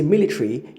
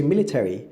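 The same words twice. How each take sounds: First: MILITARY said as "MIL-i-tree", schwa dropped; schwa omitted. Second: MILITARY said as "MIL-i-terry", all four syllables; schwa rendered. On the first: Teacher demonstrating omitted schwa in military, schwa omitted. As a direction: drop the vowel before the final -ry in MILITARY. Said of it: "you've omitted the schwa". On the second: Teacher contrasting the full form of military, schwa rendered. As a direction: sound out the -TER- in MILITARY. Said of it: "you've rendered the schwa". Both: Shown as a demonstration.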